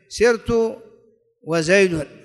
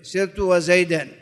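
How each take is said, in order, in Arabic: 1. تنتهي الكلمة الأخيرة بصوت حركة الضمة. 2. تنتهي الكلمة الأخيرة بصوت حركة الفتحة.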